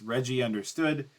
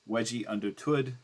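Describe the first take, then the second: First: The name begins with an R sound. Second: The name begins with a W sound. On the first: The speaker calls it right. "it's Reggie understood" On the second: The speaker calls it wrong. "he pronounces it as Wedgie understood"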